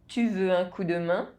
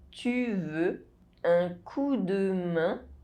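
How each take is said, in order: First: The sentence is spoken at normal speed. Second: The sentence is spoken slowly. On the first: "I'll say it again at a normal pace" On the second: "you listen to the phrase in slow French"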